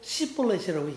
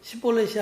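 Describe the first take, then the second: First: The first consonant sounds strong and odd. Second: The first consonant sounds soft and ordinary. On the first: The speaker is from that region. The speaker calls it wrong. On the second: The speaker is not from that region. The speaker calls it right.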